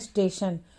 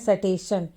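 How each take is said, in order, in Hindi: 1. पहला स बिना स्वर के त से जुड़ जाता है। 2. पहले स के बाद पूरा स्वर आता है। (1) "यहाँ इसे पढ़ना है स्टेशन" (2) "कुछ बच्चे पढ़ते हैं स्टेशन"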